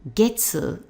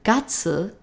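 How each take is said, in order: First: It uses the reading heard in the word Monday. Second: It uses the reading heard in month names. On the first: It means month in phrases like this month. "the word for month that we're going to be using in this pattern" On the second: It names a month of the year. "that's the name of the month"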